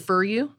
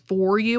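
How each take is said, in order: First: The word 'for' sounds like 'fur'. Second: The word 'for' has a standard vowel. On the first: "the South City German accent kind of for you" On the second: "instead of"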